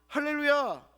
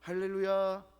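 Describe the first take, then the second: First: It is shouted loudly with joy. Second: It is said in a flat, calm way.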